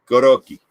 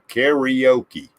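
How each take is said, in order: First: It is said with Japanese vowels and a tapped R. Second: It is said with American vowels and a plain R. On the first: The speaker calls it right. "you roll your R. ... So it's karaoke" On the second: The speaker calls it wrong. "we said karaoke. We, we added all kinds of syllables"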